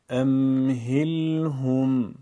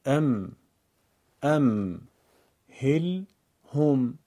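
First: امهلهم drawn out very slowly, holding each m and l; held sukun letters. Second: ام، هل، هم as separate syllables with clear pauses. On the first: Teacher shows learners a sakin word: امهلهم stretched slowly. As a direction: recite امهلهم slowly as one word, lingering on the closed consonants. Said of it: "این کلمه رو دقت کنید". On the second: Teacher demonstrates simple reading to learners: ام، هل، هم in separate pieces. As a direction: break the word into closed syllables, one at a time. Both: Shown as a demonstration.

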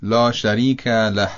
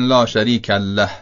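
First: له said with a single light lam; careful correct recitation; correct pronunciation. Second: له pressed with a hard doubled lam; wrong doubled lam. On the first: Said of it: "پس تلفظ درستش". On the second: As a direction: push the double l in له. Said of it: "اینم طبیعتاً غلطه". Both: Shown as a demonstration.

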